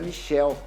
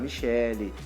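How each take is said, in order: First: The name is said with an English pronunciation. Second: The name is said with a Brazilian pronunciation. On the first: In Portuguese it sounds like a man's name. The speaker calls it wrong. "se a gente falar com a pronúncia americana, uh, inglesa, vira Michelle" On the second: The name is adapted so it sounds like a woman's name. The speaker calls it right. "tem que virar Michele"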